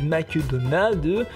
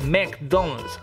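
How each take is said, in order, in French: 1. Il se prononce avec un accent français. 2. Il se prononce avec un accent américain. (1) "si vous allez aux États-Unis et que vous dites" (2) "en vrai, les ricains ils disent McDonald's"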